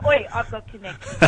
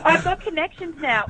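First: Quieter aside, teasing; a knowing cheeky mutter; softer mock boast. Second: Higher, jokey bragging; mock boast. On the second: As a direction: pretend insider boast. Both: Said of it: "No, I'm kidding".

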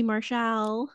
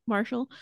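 First: "Marshall" with a full, open second syllable, mar-SHAL; mispronounced name. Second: Said in the usual way. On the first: Real, not acted. Podcaster naming the match slips on the name, "Marshall" said as mar-shal. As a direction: say "Marshall" with a clear "shal" ending.

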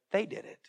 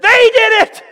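First: Soft, understated accusation; quiet blaming. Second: Loud, high, panicked-sounding protest; blame-shifting shout. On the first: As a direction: drop the blame in softly. Repeats Saul's blame, now quietly. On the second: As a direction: shout the blame onto others. Acted blame-shifting by Saul. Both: Acted.

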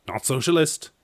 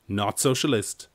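First: Socialist said higher, with a rising tune; stress on socialist. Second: Socialist said slower, with a falling tune; firm repeat. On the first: Correcting himself, socialist said higher and rising. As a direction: lift the word socialist as a correction. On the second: Repeating the correction, socialist slow and falling. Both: Shown as a demonstration.

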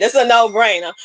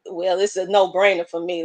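First: "no-brainer" said louder with a firm falling finish; emphatic restatement. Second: Said in the usual way. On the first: Shown as a demonstration. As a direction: land "It's a no-brainer" hard and final. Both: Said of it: "Let me just put it like that".

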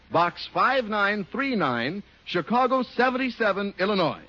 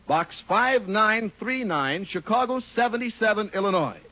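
The two takes are said the same way.

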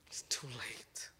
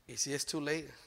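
First: Slow, soft whisper; hushed ominous whisper; whispered warning. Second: Said in the usual way. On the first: Real, not acted. Warning parents.

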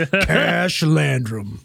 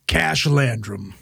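First: Very slow, drawn-out hero name; slow detective voice. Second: Slow, gravel-free tough-guy name drop; detective voice. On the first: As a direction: stretch it out like a movie trailer. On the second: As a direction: say it like a noir detective. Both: Pretend. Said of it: "Sounds like a fucking detective".

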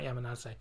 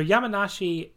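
First: Yamanase ending in "seh" instead of "shi"; quoting his own slip as Yamanase with "seh" at the end; wrong pronunciation. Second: Yamanashi said with a clear "shi" at the end; correct pronunciation. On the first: Host repeating the name he misspoke earlier: Yamanase ending in "seh". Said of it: "not Yamanase". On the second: Host correcting the town name he just got wrong: Yamanashi with a clear "shi". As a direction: land the ending of Yamanashi as "nah-shee". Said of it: "not Yamanashi". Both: Shown as a demonstration.

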